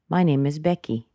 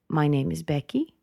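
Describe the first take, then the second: First: The voice falls at the end. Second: The voice rises at the end. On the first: The speaker is finished and invites no more talk. The speaker calls it right. "Finished. Let the intonation go down" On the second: The speaker sounds doubtful or unsure. The speaker calls it wrong. "it means that you're showing some doubt"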